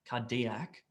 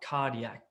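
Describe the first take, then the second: First: The stress falls on a later syllable. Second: The stress falls on the first syllable. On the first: The speaker calls it wrong. "It's not cardiac" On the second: The speaker calls it right. "The emphasis is on the car"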